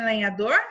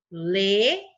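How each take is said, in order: First: Said in the usual way. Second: LENHADOR in three beats, le, nha, dor, with long gaps; widely spaced syllables in "lenhador". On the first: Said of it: "Quantas sílabas tem lenhador?". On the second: Shown as a demonstration. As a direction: count out "lenhador" one syllable at a time. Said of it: "Três sílabas".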